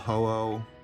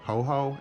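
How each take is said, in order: First: The second syllable starts with a vowel. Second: The second syllable starts with an h sound. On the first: The speaker calls it right. "I do know the correct pronunciation" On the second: The speaker calls it wrong. "I used to call Ho-Oh um, Ho-Ho"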